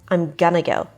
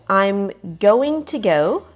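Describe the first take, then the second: First: 'Going to' is blended into one reduced word. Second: Both words of 'going to' are said in full.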